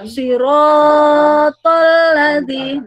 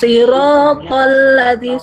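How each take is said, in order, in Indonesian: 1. Vokal 'ro' dibaca lebih dari dua ketukan. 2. Vokal 'ro' dibaca dua ketukan. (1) "Tidak boleh sirotol ladzi. Nah, itu siro itu sudah kena tawalud" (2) "roh itu kan dua ketukan"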